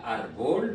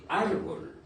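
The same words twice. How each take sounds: First: "árbol" wrongly stressed as ar-BOL; stress on last syllable. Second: "árbol" stressed as ÁR-bol, falling at the end; stress on first syllable. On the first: Teacher shows what not to say, "árbol" stressed on BOL. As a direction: push the weight onto the BOL of "árbol". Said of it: "On ne dit pas". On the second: Teacher gives the correct form, "árbol" stressed on ÁR. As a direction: hit the ÁR of "árbol", let bol drop. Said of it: "mais on dit". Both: Shown as a demonstration.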